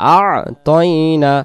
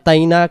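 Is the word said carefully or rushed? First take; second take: careful; rushed. First: Every sound is said fully and slowly. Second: It is said quickly, dropping two sounds. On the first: The speaker calls it right. "দুই অক্ষরকে আদি করব আমরা আ তয়না" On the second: The speaker calls it wrong. "তাড়াহুড়া করে বলার কারণে আমাদের হয়ে যায়"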